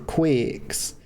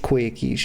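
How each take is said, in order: First: The name is said as one syllable. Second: The name is said as two syllables. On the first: The speaker calls it wrong. "she's referring to herself as Master Quicks" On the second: The speaker calls it right. "It's pronounced Quickies"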